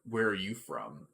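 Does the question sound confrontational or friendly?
confrontational. The question sounds sharp and accusing. The asker is challenging the listener. "Is different from"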